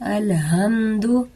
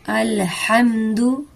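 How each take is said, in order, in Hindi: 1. h हल्की, साँस वाली आवाज़ है। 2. h हलक़ से निकलने वाली, कसी हुई आवाज़ है। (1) "अगर हम इस हा को हलक से नहीं निकालेंगे और हम ये दो कश्मी वाले हा के साथ" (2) "इसका मानी है तमाम तारीफें"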